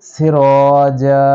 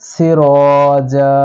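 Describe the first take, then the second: Both takes have the same delivery.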